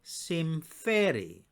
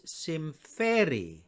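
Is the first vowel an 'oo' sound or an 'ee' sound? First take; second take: ee; ee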